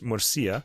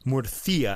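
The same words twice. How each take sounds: First: The middle consonant is a plain s sound. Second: The middle consonant is a lisped th sound.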